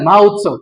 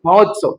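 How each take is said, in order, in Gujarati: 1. બે શબ્દો અલગ અલગ બોલાય છે, સ્વર છૂટા રહે છે. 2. ઝડપથી બોલો તો બંને સ્વર ભેગા થઈને એક o બને છે.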